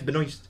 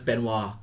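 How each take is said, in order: First: The S before the final T is sounded. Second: The S before the final T is silent. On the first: "it's Benoist" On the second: "unless it's a silent S, then it's Benoit"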